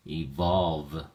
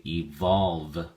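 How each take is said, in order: First: Evolve repeated, volve stressed; teacher repeating evolve with stress on volve; stress on second syllable. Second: Evolve with volve stressed, said slowly; teacher modelling stress on volve in evolve; stress on second syllable. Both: Shown as a demonstration. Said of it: "the emphasis or stress is on the second syllable".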